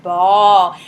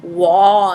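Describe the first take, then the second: First: "ball" loud and low with a hard B. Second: "Wall" with W in place of B, loud and low; kid's mistaken W. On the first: Shown as a demonstration. Teacher showing kids the B sound, hard loud B in "ball". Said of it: "You do a really hard B". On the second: Acted. Kid copying teacher's B sound, mistaken W in "Wall". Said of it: "And then the kid says".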